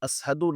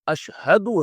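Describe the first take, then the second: First: The consonant after the first vowel is 's'. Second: The consonant after the first vowel is 'sh'. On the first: The speaker calls it wrong. "असहदु असहदु नहीं है" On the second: The speaker calls it right. "अशहदु है, ... बड़ी शील के साथ"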